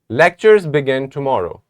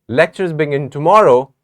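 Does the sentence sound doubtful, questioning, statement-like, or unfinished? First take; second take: statement-like; unfinished. First: It is said as a flat, finished statement. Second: It sounds unfinished, as if more follows. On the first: It states a plain fact. "let us say it like a statement" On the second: More will be said after this. "when we have more to say"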